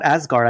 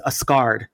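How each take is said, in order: First: Said in the usual way. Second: "Asgard" said as "a-SKARD"; mistaken pronunciation. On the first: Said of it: "not Asgard". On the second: Shown as a demonstration. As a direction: misread "Asgard" as "a scarred", with a K sound. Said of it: "I used to think it was Asgard".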